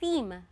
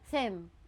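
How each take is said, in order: First: The vowel sounds like the one in 'see'. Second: The vowel sounds like the one in 'them'. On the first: The speaker calls it right. "Ganun siya i-pronounce" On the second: The speaker calls it wrong. "napapronounce ko siya as them"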